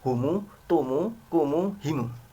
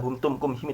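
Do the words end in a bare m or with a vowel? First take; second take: vowel; bare m. First: Each word ends with an added u vowel. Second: Each word ends in a bare m sound. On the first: "Ada yang dibaca silah" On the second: "itu namanya dibaca sukun"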